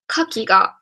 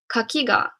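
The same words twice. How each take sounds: First: The pitch accent falls on the first syllable. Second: The pitch accent falls on the final syllable. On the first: It means oyster. "Initial accented" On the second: It means fence. "Final accented"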